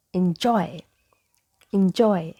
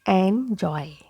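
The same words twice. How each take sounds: First: "enjoy" as in-JOY, short I first; correct "enjoy". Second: "enjoy" as AN-joy, drawn out in two parts; mispronounced "enjoy". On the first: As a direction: say "enjoy" starting like "in". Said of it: "So it is". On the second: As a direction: say "enjoy" with open E up front. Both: Shown as a demonstration.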